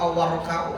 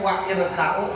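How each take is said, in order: First: The glottal stop is dropped, linking the words. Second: The glottal stop before i is clearly pronounced. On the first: The speaker calls it right. "hamzahnya hilang kalau dia nyambung" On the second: The speaker calls it wrong. "Kenapa nggak wair?"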